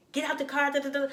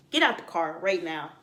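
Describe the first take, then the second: First: Lightly voiced lax order, higher; half-hearted order. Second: Lower, firm command; mean it, set it down hard; firm order. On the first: Telling what a Pisces girl does not mean, lax mock order. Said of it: "We ain't here to say". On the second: Retold or imitated. Pisces girl means it, firm lower command.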